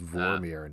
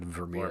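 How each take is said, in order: First: The name is said like Vormir. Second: The name is said like Vermeer. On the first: This names the planet. The speaker calls it right. "It's Vormir, not Vermeer" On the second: This names the painter. The speaker calls it wrong. "We said it wrong on a previous podcast"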